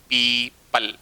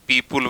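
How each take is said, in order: First: The last syllable sounds like 'pal'. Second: The last syllable sounds like 'pul'. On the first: The speaker calls it right. "लेकिन होता क्या है?" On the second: The speaker calls it wrong. "अपन पीपुल वगैरह बोलते हैं"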